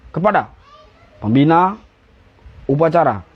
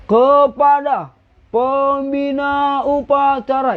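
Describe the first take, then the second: First: Short, separate words with pauses between; aba-aba upacara. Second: High, slow, drawn-out schoolkid command; anak SD. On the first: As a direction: give it as a brisk drill command, no dragging. (aba-aba tegas, tidak diseret) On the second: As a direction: drag every syllable like a primary school pupil. (aba-aba melengking dan diseret ala anak SD) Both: Shown as a demonstration. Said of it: "jangan kayak anak S D gini".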